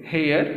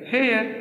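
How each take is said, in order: First: hair said level; hair as the opening list item; first of the pair. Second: hair pitched higher, falling; hair with a high falling close; second of the pair. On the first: Teacher reading the homophone pair, first word. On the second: Teacher finishing the homophone pair, falling tune. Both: Shown as a demonstration. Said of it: "ये भी दोनों same है बेटा".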